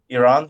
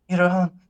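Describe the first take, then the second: First: The word is said plainly and confidently. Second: The word is said hesitantly and with embarrassment. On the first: The speaker feels fine about the country. The speaker calls it right. "Instead of saying Iran" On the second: The speaker is ashamed of the country. The speaker calls it wrong. "obviously in an exaggerated uh, example"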